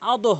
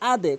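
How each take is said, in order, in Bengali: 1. শেষের 'd' উপরের দিকে ঝাঁকুনি দেয়, 'o' ধ্বনির দিকে। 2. শেষের 'd' নিচের দিকে ঝাঁকুনি দেয়, 'e' ধ্বনির দিকে। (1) "কখনোই আদো হবে না" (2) "আদে হবে"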